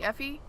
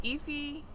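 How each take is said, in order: First: Effie said as EH-fee, questioning; short-E Effie. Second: Effie said as EE-fee; long-E Effie. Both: Shown as a demonstration. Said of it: "Effie or Effie?".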